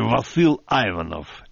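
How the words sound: The name has an American English pronunciation.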